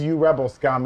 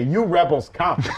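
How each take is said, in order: First: The s sound begins the last word, scum. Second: The s sound ends the middle word, rebels. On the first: It is an insult aimed at the rebels. "in the movie, in Return of the Jedi, he says" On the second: It orders the rebels to come. "if he were to say it as sort of a command"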